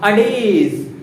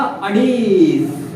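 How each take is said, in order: First: Said in the usual way. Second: अडेज drawn out slowly and louder; stretched out loud. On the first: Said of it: "क्या word था". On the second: Shown as a demonstration. Teacher stressing the key word for the class, slow and loud. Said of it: "क्योंकि word क्या था".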